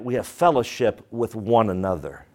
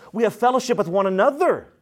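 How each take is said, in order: First: It is said softly and slowly. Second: It is said at normal volume and pace.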